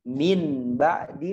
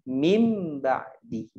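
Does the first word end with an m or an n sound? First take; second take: n; m. First: The first word ends with an n sound. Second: The first word ends with an m sound. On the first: "Harusnya min ba'di" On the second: "menjadi mim ba'di"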